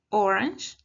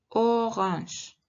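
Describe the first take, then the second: First: "orange" said as in English, rolled r, no French nasal. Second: "orange" said as in French, throaty r, nasal ending. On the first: Teacher contrasts English with French, English pronunciation. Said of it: "En inglés sería orange". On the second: Teacher contrasts English with French, French pronunciation. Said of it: "en francés sería orange". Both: Shown as a demonstration.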